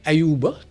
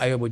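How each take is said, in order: First: The second vowel is a u sound. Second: The second vowel is an o sound. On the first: This is the original form of the name. "normalement ton nom c'est Ayuba" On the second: This is the local form of the name. "Sénégal dañuy dindi U bi def ci O"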